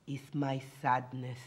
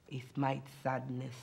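The two takes are said the same way.

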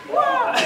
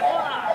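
First: Piercing wah, much higher and louder; high kiai shout. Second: A contained fighting grunt; kiai shout. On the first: Teacher showing the other fighting noise, piercing high wah. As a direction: shriek it out like Bruce Lee. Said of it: "Or he go". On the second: Teacher showing one of two fighting noises, contained wah. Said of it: "the second one's like". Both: Shown as a demonstration.

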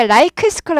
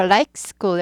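First: "like school" with extra vowels, "laikeu seukul". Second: "like school" as "laik skool", no added vowels; 스타카토. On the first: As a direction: pad out "like school" Korean-style, loudly. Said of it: "like school 하지 않고 like school". ("like school"을 '라이크 스쿨'처럼) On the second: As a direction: cut "like" short before "school". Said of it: "여기 스-, 스타카토 있어요". ("like school"을 끊어서 스타카토로) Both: Shown as a demonstration.

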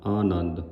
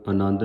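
First: ਆਨੰਦ begun on a clear long aa of aira; correct reading. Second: ਆਨੰਦ begun with a plain a, the wrong way; wrong reading. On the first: Teacher giving the sangat the right ਆਨੰਦ, long aa. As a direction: open ਆਨੰਦ with a full long aa. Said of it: "ਆਨੰਦ ਐੜੇ ਕਰਨਾ". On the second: Teacher showing the sangat the wrong ਆਨੰਦ. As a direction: start ਆਨੰਦ on a short a. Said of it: "ਆਨੰਦ ਨਹੀਂ ਕਹਿਣਾ". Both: Shown as a demonstration.

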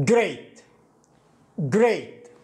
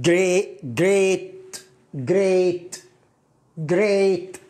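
First: Great said crisply with a falling tune; English great. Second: Great repeated, hard g clear; English great. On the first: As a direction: say great clearly, gr-eat. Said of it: "كيف نطقت هذه الكلمة". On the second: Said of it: "جيم راء ثم ياء". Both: Shown as a demonstration.

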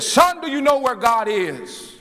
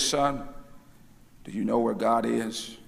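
First: High, ringing preacher's demand; mock thundering question, pitched way up; booming voice. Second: Mock-solemn low, soft question to a boy; lightly voiced grave minister, low and quiet; serious preacher. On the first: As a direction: boom it out like an imitated stern minister. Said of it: "in a booming voice". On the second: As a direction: put on a serious, hushed voice. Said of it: "in his most serious voice".

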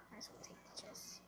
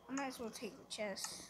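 First: Quick whisper to yourself; fast whispered repeat. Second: Said in the usual way. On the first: Real, not acted.

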